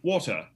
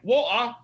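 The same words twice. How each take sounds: First: It is said in a BBC British accent. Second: It is said in a North London accent.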